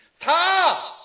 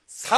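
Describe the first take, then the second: First: 사 shouted high and loud; shouted number four. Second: 사 punched loud; emphasized number four. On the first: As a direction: belt out 사 as the answer. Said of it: "다시 한번 해줄까요?". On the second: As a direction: hit 사 hard. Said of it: "사지선다로 해볼까요?". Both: Shown as a demonstration.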